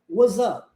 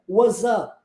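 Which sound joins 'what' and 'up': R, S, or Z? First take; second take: Z; Z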